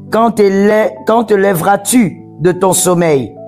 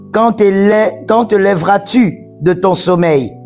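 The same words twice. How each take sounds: Both takes have the same delivery.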